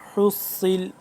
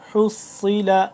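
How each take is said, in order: First: The final vowel is dropped; it ends on a consonant. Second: The word ends on a final vowel.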